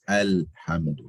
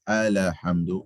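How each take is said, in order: First: The L sound is held without any bounce. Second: The L sound is released with a bounce. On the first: The speaker calls it right. "it's Alhamdu" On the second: The speaker calls it wrong. "don't bounce the lamb. Don't say Alhamdu. It's not Alhamdu"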